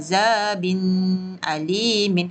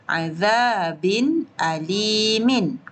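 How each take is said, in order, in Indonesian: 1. Bunyi n ditahan dengan dengung sengau. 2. Bunyi n diucapkan jelas tanpa dengung. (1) "Tak boleh baca azabin alimin. Okey, tu salah" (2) "Yang betul, azabin alimin"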